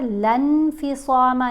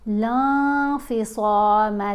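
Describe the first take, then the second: First: The n sound is pronounced fully and clearly. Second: The n sound is hidden as a nasal hum. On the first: The speaker calls it wrong. "नहीं पढ़ना" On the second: The speaker calls it right. "नून की आवाज़ को हमने नाक में छुपा कर पढ़ना है"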